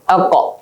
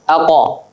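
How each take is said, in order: First: The consonant ends in a brief echo, no vowel. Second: The consonant is followed by a full a vowel. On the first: The speaker calls it right. "ini bukan bukan fathah yang keluar" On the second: The speaker calls it wrong. "Kalau fathah aqa"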